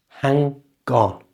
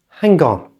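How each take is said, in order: First: The phrase is said slowly, with the link exaggerated. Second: The phrase is said quickly, at normal conversational speed. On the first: "Listen again" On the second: "And at normal speed"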